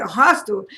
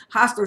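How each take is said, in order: First: Hostile asked back, louder, in mock disbelief; retold disbelief at being called hostile; incredulous echo. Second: Said in the usual way. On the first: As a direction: throw hostile back like you can't believe it. Retold outraged echo of accusation.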